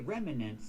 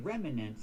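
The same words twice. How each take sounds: First: The word is said with three syllables. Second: The same.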